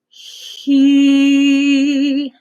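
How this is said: The vowel starts with a soft breathy h sound.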